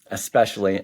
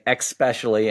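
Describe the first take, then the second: First: It begins with an 'es' sound. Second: It begins with an 'eks' sound. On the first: "rather than" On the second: "substitution of the E X sound for the E S sound... I'm kind of overemphasizing the X"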